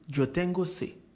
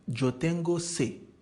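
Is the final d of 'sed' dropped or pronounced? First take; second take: dropped; dropped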